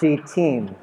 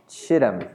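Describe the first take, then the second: First: The first syllable has a long 'ee' vowel. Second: The first syllable has a short 'ih' vowel. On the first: The speaker calls it right. "It's she team" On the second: The speaker calls it wrong. "It's not Shittim"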